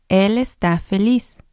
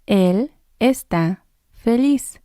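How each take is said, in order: First: Said in the usual way. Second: Slow and clear, each word laid out; slow model sentence. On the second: Shown as a demonstration. Teacher modelling for students, slow and careful. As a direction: say it slowly so learners can copy it. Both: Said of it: "You say it too".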